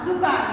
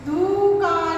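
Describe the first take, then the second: First: दुकान with a short, quick 'du'; correct short vowel. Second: दुकान with a drawn-out 'doo'; wrong long vowel. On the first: Teacher gives pupils the correct word, short-u दुकान. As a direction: clip the u in दुकान, falling at the end. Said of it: "सही उच्चारण होगा हमारा". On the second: Teacher demonstrates the mistake, long-vowel दुकान. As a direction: stretch the first vowel of दुकान into doo-kaan. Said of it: "ये गलत उच्चारण है". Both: Shown as a demonstration.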